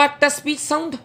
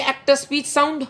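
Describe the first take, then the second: No difference in how they are said.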